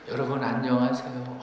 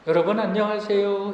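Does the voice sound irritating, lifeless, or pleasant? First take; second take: lifeless; pleasant. First: The voice sounds drained and lifeless. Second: The voice sounds pleasant at a mid pitch.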